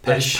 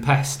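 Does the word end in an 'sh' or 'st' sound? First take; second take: sh; st. First: The word ends with an 'sh' sound. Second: The word ends with an 'st' sound. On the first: The speaker calls it right. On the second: The speaker calls it wrong.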